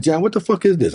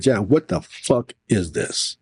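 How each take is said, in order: First: High-pitched, retold outrage; quick indignant challenge; indignant demand. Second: Slowed down, weight on "fuck"; drawn-out "what the fuck", word by word; emphatic retold demand. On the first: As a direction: demand an explanation, voice jumping up. Retells confronting the Senate president. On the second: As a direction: spell out the demand, leaning on "fuck". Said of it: "I literally said".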